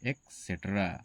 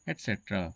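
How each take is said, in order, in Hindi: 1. इस शब्द की शुरुआत 'ex' की आवाज़ से होती है। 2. इस शब्द की शुरुआत 'et' की आवाज़ से होती है। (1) "ये एक्सेट्रा नहीं है, ये इसका गलत प्रोनाउंसिएशन है" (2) "इसका सही प्रोनाउंसिएशन होगा एटसेट्रा"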